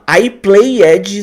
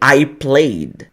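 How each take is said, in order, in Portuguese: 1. O final -ed é pronunciado como uma sílaba extra enfática. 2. O final -ed é apenas um som final sutil. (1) "pronunciar o ed no final de forma enfática" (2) "só vou pronunciar o som do D bem sutilmente"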